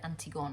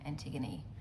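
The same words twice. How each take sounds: First: The name is pronounced in a French way. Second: The name is pronounced in an English way. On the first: Someone else said it this way. "some a lady who's um, French pronounced that Antigone" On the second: This is how the speaker thought it was said. "That's I thought how you pronounce that"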